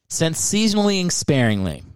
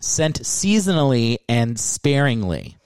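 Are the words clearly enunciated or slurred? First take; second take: slurred; clear. First: The words are run together and unclear. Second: Each word is articulated carefully and clearly. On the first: The speaker calls it wrong. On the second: The speaker calls it right.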